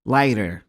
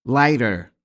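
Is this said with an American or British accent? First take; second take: American; American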